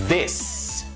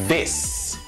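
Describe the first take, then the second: Both takes have the same delivery.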